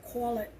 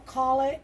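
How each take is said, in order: First: New York "cawl it", with a rounded vowel; quick New York slip on "call"; New York accent. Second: Said in the usual way. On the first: Shown as a demonstration. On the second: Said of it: "I almost said call it".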